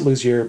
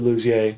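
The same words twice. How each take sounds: First: The name is pronounced the English way. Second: The name is pronounced the French way. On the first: This is how he goes by it in LA. "I pronounce it Luzier" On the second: This is the family's original name. "but it's technically Luzier. My family is Luzier"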